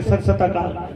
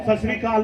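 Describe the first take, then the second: First: SHRI replaced by a second सत, as सत सत अकाल; mocked mispronunciation. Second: Said in the usual way. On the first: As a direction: mimic the botched greeting, सत सत अकाल, dropping lower. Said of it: "बोलते हैं". (सत सत अकाल, श्री की जगह सत बोलकर गलत उच्चारण की नकल) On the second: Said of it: "बोलना तो होता है".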